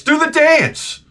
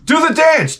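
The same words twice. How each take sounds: First: Mock woman nagging. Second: Woman's nagging. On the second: Retold or imitated. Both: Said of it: "And this woman says to me".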